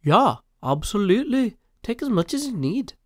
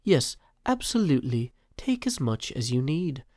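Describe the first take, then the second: First: Higher, louder put-on British accent; a hammed-up British voice, bright and bouncy. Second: Refined British accent. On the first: Reading Mumbo's chat reply in a mock British accent. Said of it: "he uses a British voice". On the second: Shown as a demonstration. Rereading Mumbo's reply in a refined British accent. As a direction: lay on a polished RP British accent. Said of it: "received pronunciation there".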